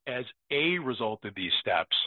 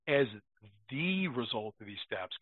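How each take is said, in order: First: "a" said in place of "the", quick and careless: "as a result"; sloppy misreading. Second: "the" clearly pronounced and stressed, then the phrase drops softer: "As the result". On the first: Retold or imitated. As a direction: read it lazily, swallowing the article into "a". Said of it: "like they're saying". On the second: Shown as a demonstration. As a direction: lean on the word "the" to correct the misreading. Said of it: "that little word".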